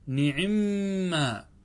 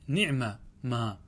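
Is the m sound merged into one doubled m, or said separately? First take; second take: merged; separate. First: The two m sounds merge into one doubled m. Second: The two words are said separately, without merging. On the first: "أو تدغم فتقول نعمة" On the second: "فتقول نعمة ما"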